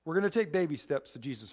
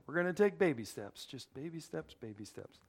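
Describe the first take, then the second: First: Said in the usual way. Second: Put-on baby steps fading from normal to much softer; fading away. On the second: Shown as a demonstration. Preacher to the congregation, repeating baby steps and trailing off softly. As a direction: let each "baby steps" trail off quieter. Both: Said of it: "repeats the phrase, fading".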